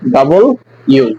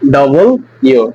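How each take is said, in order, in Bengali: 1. এটি দুটি স্পষ্ট আলাদা অংশে বলা হয়। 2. এটি দুটি স্পষ্ট আলাদা অংশে বলা হয়।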